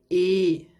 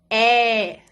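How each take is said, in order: First: The vowel is said closed. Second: The vowel is said open. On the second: "o som delas é aberto"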